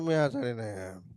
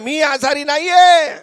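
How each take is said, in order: First: It is said weakly, like a sick person. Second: It is said loudly and forcefully.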